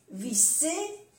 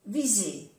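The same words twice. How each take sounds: First: "visser" rising high, with an unvoiced s; double S. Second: "viser" falling, with a voiced z; soft Z. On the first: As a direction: lift "visser" with a hiss in the middle. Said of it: "una S o doble S". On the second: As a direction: say "viser" with a buzzing z. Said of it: "se pronuncia como una Z suave". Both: Shown as a demonstration.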